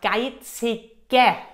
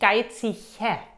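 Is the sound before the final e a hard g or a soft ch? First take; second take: hard g; soft ch. First: The consonant before the final e is a hard g. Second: The consonant before the final e is a soft ch. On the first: The speaker calls it right. "Und der Mann sagt geizige" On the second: The speaker calls it wrong. "nicht geizige, weil hier ist noch ein Buchstabe"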